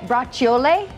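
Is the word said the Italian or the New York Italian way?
Italian. It is said the way Italians in Italy say it. "in Italy, they say it bracciole"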